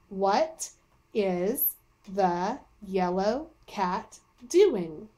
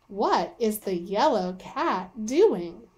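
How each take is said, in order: First: It is read slowly, word by word. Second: It is read smoothly, like natural talk.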